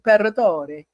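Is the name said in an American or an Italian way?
Italian. The name is said with Italian-style sounds.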